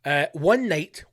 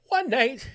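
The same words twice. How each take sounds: First: Said in the usual way. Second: One night said much higher; dramatic repeat. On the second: Shown as a demonstration. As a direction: lift the repeat like a storyteller.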